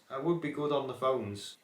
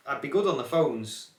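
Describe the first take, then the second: First: Said in the usual way. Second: A hint of a call-centre voice, a bit louder; lightly put-on telephone manner; phone voice. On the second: Shown as a demonstration. Vlogger trying out his camera voice as a phone operator, lightly. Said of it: "this camera voice".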